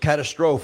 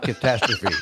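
First: It is a spelling-based mispronunciation of the word. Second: It is the standard pronunciation of the word. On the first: The speaker calls it wrong. "I thought the word was catastrophe" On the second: The speaker calls it right. "not catastrophe"

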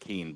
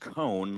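First: The vowel does not rhyme with 'cone'. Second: The vowel rhymes with 'cone'. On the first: The speaker calls it wrong. "instead of Keen" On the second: The speaker calls it right. "It's Cone, like Conehead"

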